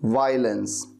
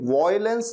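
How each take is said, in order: First: The first syllable sounds like 'vai'. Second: The first syllable sounds like 'voy'. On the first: The speaker calls it right. "वॉयलेंस नहीं बल्कि वायलेंस" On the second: The speaker calls it wrong. "इसे कभी भी वॉयलेंस नहीं कहना"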